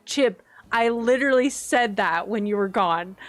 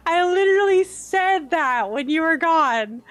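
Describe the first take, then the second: First: Said in the usual way. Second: Louder, stress on literally; insist, raised voice; emphatic repeat. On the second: Real, not acted. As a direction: hammer the point home to Chip.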